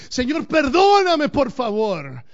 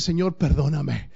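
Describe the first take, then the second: First: High, loud and slow, crying out; anguished plea. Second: Said in the usual way. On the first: Shown as a demonstration. Pastor shows the congregation how to cry out, anguished plea. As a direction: beg God desperately. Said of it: "nuestro clamor tiene que ser así". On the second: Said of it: "tiene que ser así".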